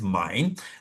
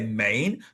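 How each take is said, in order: First: It is said differently from the English spelling. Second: It is said the way the English spelling suggests. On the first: The speaker calls it right. "but it is Main" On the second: The speaker calls it wrong. "It is spelled as though you would say Main"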